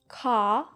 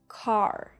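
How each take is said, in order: First: British accent, with the r sound dropped. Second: American accent, with the r sound pronounced. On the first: "as British as possible" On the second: "as American as possible"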